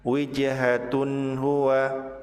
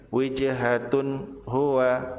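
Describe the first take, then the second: No difference in how they are said.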